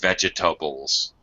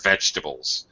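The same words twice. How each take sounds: First: The middle syllable is clearly pronounced. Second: The middle syllable is dropped. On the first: This is the British way of saying it. "For British people, They pronounce the middle syllable" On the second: This is the American way of saying it. "for Americans"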